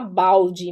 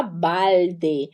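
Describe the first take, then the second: First: Balde said "baudji", the Brazilian way. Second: Balde with a full tongue-tip L and clear final "de". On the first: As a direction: let the L in balde become a w glide. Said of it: "o L com som de U". (balde com L com som de U) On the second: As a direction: sound the L in balde, slow and lower. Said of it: "L tem som de L". (balde com L de verdade, língua no céu da boca) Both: Shown as a demonstration.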